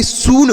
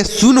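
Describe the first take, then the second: First: सून with a long oo. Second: सुन with a short, quick u. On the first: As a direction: stretch the vowel of सून. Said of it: "सून होता है ना". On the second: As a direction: cut the vowel of सुन short. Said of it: "सुन नहीं होता". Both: Shown as a demonstration.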